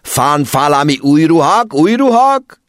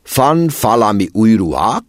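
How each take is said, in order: First: Put-on "Fan falami új ruhák, új ruhák?" rising to a much higher, louder shout in a foreign accent; exasperated accented yelling. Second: Put-on an officer's foreign accent, pursed and thoughtful, f for v in "Fan falami"; musing in a foreign-accented question, "Fan falami új ruhák?"; foreign accent, pondering. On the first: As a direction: yell the question in exasperation. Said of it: "A vámos dühösen meredt rá". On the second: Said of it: "elgondolkozva csücsörítette száját". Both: A narrator's reading.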